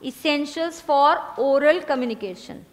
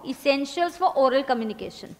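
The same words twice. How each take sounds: First: Even slower, every word spaced; slower repeat dictation. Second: Drawn out heading for writing; slow dictation. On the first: Teacher repeating heading, slower still. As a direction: repeat it slowly for the stragglers. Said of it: "लिखना". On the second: Teacher dictating heading, slow. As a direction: say it slowly while they write. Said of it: "लिखो". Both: Shown as a demonstration.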